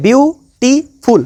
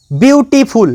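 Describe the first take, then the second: First: beautiful broken into বিউ, টি, ফুল with clear pauses; syllable by syllable. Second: Said in the usual way. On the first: Shown as a demonstration. Teacher counting syllables for students, beautiful split into three parts. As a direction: say beautiful very slowly in three separate beats. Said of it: "তিনটে শব্দ". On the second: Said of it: "তাহলে কতগুলো syllable".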